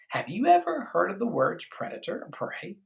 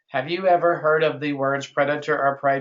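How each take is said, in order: First: It is read with lively, varied expression. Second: It is read flat, fast and robotic. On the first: The speaker calls it right. "We've got to read the expression" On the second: The speaker calls it wrong. "most kids read this like that. ... zombie robot, ... you're going too fast"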